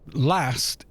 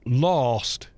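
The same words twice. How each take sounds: First: The word is said with a northern English vowel. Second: The word is said with a southern English vowel. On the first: "Last is a northern inflection" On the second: "last is a southern inflection"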